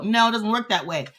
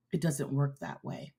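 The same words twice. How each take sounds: First: Fired up, pressing the point hard; getting carried away by the message; excited. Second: Softer and lower, reining it back in; calmed down. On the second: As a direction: pull back after getting excited. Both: Real, not acted. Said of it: "No, I'm getting excited".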